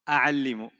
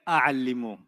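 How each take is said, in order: First: The word begins with the vowel a. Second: The same.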